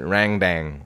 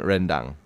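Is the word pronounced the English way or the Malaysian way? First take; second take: English; Malaysian. First: It is said with an anglicized, distorted pronunciation. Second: It is said with the native Malaysian pronunciation. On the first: The speaker calls it wrong. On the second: The speaker calls it right.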